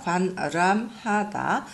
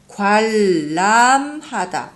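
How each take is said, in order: First: The first syllable ends in an n sound. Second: The first syllable ends in an l sound. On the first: "관람하다 이렇게 써 있어요. 나피스나 관람하다" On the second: "그런데 우리는 어떻게 말을 해요? ... 리을, 리을, 니은 리을 이스포리즘"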